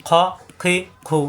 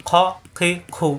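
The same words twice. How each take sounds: Both takes have the same delivery.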